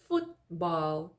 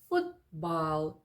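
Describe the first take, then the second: First: The t is held back and barely heard. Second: The same.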